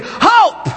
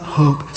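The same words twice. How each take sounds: First: Very high, exuberant HOPE; HOPE as a high, airy cheer; breathy exclamation. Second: Said in the usual way. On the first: Shown as a demonstration. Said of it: "the little breath thing". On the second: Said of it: "Not hope".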